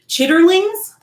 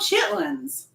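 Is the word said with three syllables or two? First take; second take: three; two. First: The word is said in full with three syllables. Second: The word is shortened to two syllables. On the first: The speaker calls it wrong. "Not chitterlings" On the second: The speaker calls it right. "Oh, chitlins"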